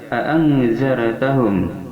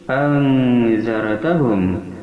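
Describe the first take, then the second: First: Both glottal stops are clearly pronounced. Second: The second stop is softened, barely heard. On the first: "bitahqiqil hamzataini dengan menyatakan dua hamzah" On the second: "mentashil hamzah yang kedua ini ... antara ada dan tiada"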